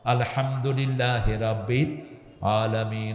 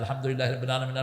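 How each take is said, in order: First: It is recited slowly, pausing between phrases. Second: It is recited fast, without any pauses.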